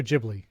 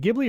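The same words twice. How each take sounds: First: Ghibli starting with a "juh" sound; soft G in Ghibli. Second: Ghibli starting with a hard "guh" sound. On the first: Co-host offers the other option, Ghibli with soft G. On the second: Co-host unsure of the name, Ghibli with hard G. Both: Shown as a demonstration. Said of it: "Is it Ghibli or Ghibli?".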